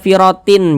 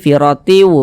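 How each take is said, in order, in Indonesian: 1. Bunyi n di akhir terdengar jelas. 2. Bunyi n di akhir menyatu dengan bunyi w. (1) "jangan dibaca firotin" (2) "tapi firotiu begitu"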